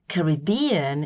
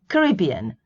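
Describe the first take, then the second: First: It is said the British way. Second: It is said the American way. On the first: "is British" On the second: "mostly American"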